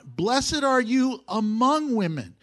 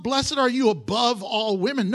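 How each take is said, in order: First: AMONG drawn out and louder; slow down and lean on "among"; stress on among. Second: ABOVE punched as the wrong word; loud, emphatic hit on "above"; stress on above. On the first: Preacher showing the congregation the exact wording, stressing "among". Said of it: "let's look at the wording carefully". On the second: Preacher voicing the wrong reading to reject it, stressing "above". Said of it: "not above women". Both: Shown as a demonstration.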